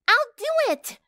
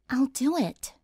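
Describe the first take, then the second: First: It is yelled loudly. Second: It is said in a soft voice.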